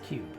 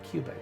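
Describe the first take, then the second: First: The name ends on a consonant sound. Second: The name ends with an extra vowel sound. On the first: The speaker calls it right. "It's Cube" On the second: The speaker calls it wrong. "I keep calling King Cuba. It's not Cuba"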